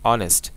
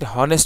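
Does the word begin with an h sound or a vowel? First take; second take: vowel; h sound. First: The word begins directly with a vowel sound. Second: The word begins with an audible h sound. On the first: The speaker calls it right. "আমরা বলেছি অনেস্ট। তাহলে যেখানে H এর উচ্চারণ silent থাকে" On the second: The speaker calls it wrong. "আমরা কি হনেস্ট বলেছি? হনেস্ট কিন্তু বলি না"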